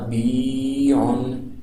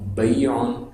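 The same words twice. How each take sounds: First: The vowel is drawn out and lengthened. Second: The vowel is short and softly glided. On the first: "اگر زیر ہوتی تو پڑھا جاتا" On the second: "یہ لین ہے"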